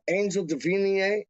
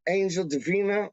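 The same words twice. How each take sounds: First: "Davina" ending in an -ee-ay sound; higher-pitched "Davina" with -ay ending; trying a pronunciation. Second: "Davina" ending in a short -uh; higher-pitched "Davina" with -uh ending; trying a pronunciation. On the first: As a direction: say "Davina" as duh-VEE-nee-ay. Tries out ways to say name. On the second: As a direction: say "Davina" as duh-VEE-nuh. Settles on the other pronunciation. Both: Shown as a demonstration.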